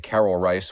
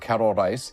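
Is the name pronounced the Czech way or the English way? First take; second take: English; Czech. First: The name is said with English pronunciation. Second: The name is said with Czech pronunciation. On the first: "the anglicized version" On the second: "more proper, I think, uh, close to the Czech pronunciation"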